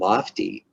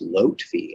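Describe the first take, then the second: First: The f sound comes before the t sound. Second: The t sound comes before the f sound. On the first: The speaker calls it wrong. "it's not Lofty" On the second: The speaker calls it right. "It's actually pronounced Lotfi, L O T F I"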